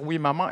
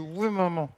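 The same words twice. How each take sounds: First: It is said clearly with the mouth open. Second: It is mumbled with the mouth nearly closed. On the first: "au lieu de dire" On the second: "sans trop ouvrir la bouche, comme ça"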